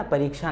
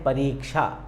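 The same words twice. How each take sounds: First: परीक्षा with short रि, the wrong way; wrong pronunciation. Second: परीक्षा said clearly with long री, falling tune; careful teacher model of परीक्षा; correct pronunciation. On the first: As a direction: demonstrate the incorrect परीक्षा. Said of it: "परीक्षा नहीं बोलना". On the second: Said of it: "उच्चारण भी ऐसा है". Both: Shown as a demonstration.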